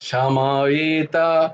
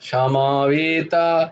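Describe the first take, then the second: Both takes have the same delivery.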